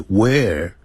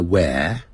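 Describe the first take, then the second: First: "Where" with a curled-tongue R at the end; American R. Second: "where" ending on an open vowel, no R; British silent R. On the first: Teacher shows American English, R sounded in "Where". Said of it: "所以在美式英语要卷舌的". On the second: Teacher shows British English, "where" without the R. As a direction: say "where" British style, tongue uncurled. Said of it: "它不卷舌". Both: Shown as a demonstration.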